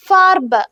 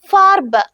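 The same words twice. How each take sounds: The two takes are said the same way.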